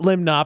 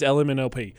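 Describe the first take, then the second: First: The letters are slurred together into one word. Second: Each letter is said clearly and separately. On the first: The speaker calls it wrong. "Limnop is not" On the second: The speaker calls it right. "It's L-M-N-O-P"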